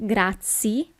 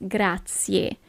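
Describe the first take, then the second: First: "grazie" ending in a plain ee, final e dropped; wrong pronunciation. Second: "grazie" with the final e sounded, grah-tsyeh; correct pronunciation. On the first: Teacher showing learners the mistake to avoid, "grazie" cut to grah-tsee. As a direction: say "grazie" as grah-tsee, losing the last vowel. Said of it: "It's not grazie". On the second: Teacher correcting learners, "grazie" with its last letter fully pronounced. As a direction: slowly say "grazie", finishing on a clear eh. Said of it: "but it's grazie". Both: Shown as a demonstration.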